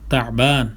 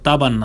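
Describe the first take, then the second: First: A throat consonant is heard before the b. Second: The word has no throat consonant before b. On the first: The speaker calls it right. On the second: The speaker calls it wrong.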